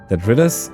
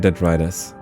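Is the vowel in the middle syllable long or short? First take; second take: short; long. First: The middle vowel is short, as in written. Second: The middle vowel is long, as in right. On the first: "pronounced like the first half of written" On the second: "or like right"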